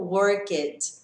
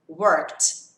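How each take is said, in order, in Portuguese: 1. O final não é um som de T curto. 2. O final é um som de T curto. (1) "e não worked" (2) "vai receber o som de T"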